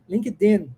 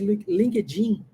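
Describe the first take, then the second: First: The d is said as a plain d sound. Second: The d is said softened like a dj sound. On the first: The speaker calls it right. "com som de D" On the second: The speaker calls it wrong. "Isso é mais aqui no Brasil"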